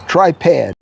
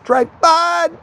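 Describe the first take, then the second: First: The second syllable sounds like "pad". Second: The second syllable sounds like "pod". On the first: The speaker calls it wrong. "I would call it tripad all the time" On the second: The speaker calls it right. "I'm actually saying it right"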